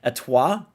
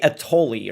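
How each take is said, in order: First: The name is said with a French pronunciation. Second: The name is said with an anglicized, non-French pronunciation. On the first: The speaker calls it right. "She's she's star and French or whatever" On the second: The speaker calls it wrong. "I used to say Atoli or something, but then I was like, okay, that's completely incorrect"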